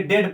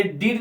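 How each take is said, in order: First: डेड with an "eh" vowel; correct reading, short e. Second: डीड with a long "ee" vowel; wrong reading, long ee. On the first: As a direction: say डेड to rhyme with "red". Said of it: "डेड पढ़ेंगे". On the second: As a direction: misread it as डीड, rhyming with "need". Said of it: "ये डीड नहीं पढ़ेंगे". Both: Shown as a demonstration.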